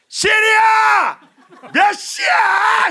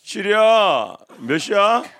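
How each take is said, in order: First: It is shouted at full, very loud volume. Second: It is said at a quiet, normal volume.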